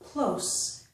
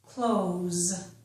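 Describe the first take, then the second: First: The word ends with a voiceless S sound. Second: The word ends with a voiced Z sound. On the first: It is an adjective meaning near. "It has a S, voiceless sound" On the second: It is a verb meaning to shut. "It is pronounced close with a Z voiced sound"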